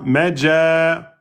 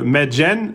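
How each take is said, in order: First: The word ends with a long vowel, no n. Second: The word ends with a short vowel plus n. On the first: The reader stops on this word. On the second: The reader continues without stopping.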